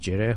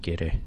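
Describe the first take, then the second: First: The word starts with a soft j sound. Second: The word starts with a hard g sound. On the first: This is the form the word took in Arabic. "because they cannot pronounce gid, so they pronounce it as jireh" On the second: This is the original Persian form of the word. "which is the original"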